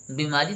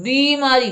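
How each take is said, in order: First: बीमारी with a short "i", as "bi-maari"; soft, short first vowel in बीमारी; mispronounced बीमारी. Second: बीमारी as "BEE-maari", high and loud; stressed long "ee" in बीमारी; corrected long vowel. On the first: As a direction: say बीमारी softly with a quick first "bi". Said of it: "थोड़ी ना होता है". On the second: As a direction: lengthen and punch the "bee" in बीमारी. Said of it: "बड़ी ई की मात्रा". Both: Shown as a demonstration.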